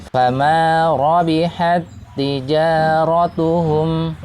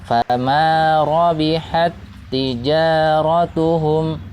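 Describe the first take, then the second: Both takes have the same delivery.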